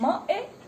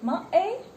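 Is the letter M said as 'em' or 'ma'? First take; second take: ma; ma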